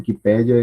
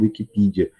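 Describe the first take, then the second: First: The word is pronounced the Portuguese way. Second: The word is pronounced the English way. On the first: "Eu vejo muita gente falando Wikipédia" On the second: "pronúncias em inglês dizendo Wikipedia"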